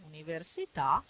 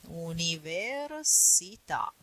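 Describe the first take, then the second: First: Said in the usual way. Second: UNIVERSITÀ stretched syllable by syllable; slow teaching demonstration of "Università"; slow model pronunciation. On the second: Shown as a demonstration. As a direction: say "Università" slowly, drawing out each syllable. Teacher models the word slowly.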